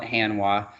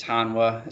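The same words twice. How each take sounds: First: Hanwha said as HAN-wah; alternative pronunciation. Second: Hanwha said properly as HAHN-wah; proper pronunciation. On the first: Presenter quoting how some people call the company, alternative pronunciation. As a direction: say Hanwha with a short "a" as in "hand". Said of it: "Some people call it Hanwha". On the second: Presenter shows attendees how to pronounce the company name, proper pronunciation. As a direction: say Hanwha with an open "ah" in the first syllable. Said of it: "how to pronounce Hanwha properly". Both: Shown as a demonstration.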